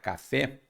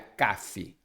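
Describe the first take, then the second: First: The stress is on the last syllable. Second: The stress is on the first syllable. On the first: The speaker calls it right. "a força tônica está no fé" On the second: The speaker calls it wrong. "Se fosse no K, não seria café"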